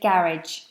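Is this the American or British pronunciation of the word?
British. It is said with a British pronunciation. "British say garage"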